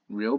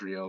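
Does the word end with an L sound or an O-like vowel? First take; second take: L sound; O vowel. First: The word ends with a clear L sound. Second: The word ends with an O-like vowel.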